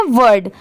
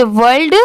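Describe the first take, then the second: First: "वर्ड" going straight from R to D. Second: "वर्ल्ड" with a clear L before the D; L sounded. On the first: Teacher clearing up the confusion, "वर्ड" with no L. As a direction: leave the L out of "वर्ड". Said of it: "W O R D क्या है". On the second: Teacher contrasting two confused words, "वर्ल्ड" with its L. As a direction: keep the L in "वर्ल्ड". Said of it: "सिर्फ एल add हो गया". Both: Shown as a demonstration.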